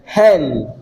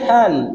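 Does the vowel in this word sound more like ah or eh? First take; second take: eh; ah. First: The vowel leans toward an eh sound. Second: The vowel is a flat, open ah sound. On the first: "you are talking about the a with an e" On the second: "If you say hand, you are talking about ah"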